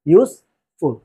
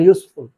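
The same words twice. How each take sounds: First: "useful" broken into ইউজ, pause, ফুল; louder first syllable of "useful", then a gap before ফুল. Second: Said in the usual way. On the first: Shown as a demonstration. Teacher showing a two-syllable word, "useful" pulled apart at the syllable break.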